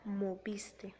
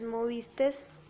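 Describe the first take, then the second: First: The word ends with a vowel, no s. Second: The word ends with an added s sound. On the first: The speaker calls it right. "se debería de decir moviste" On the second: The speaker calls it wrong. "se está agregando también la S"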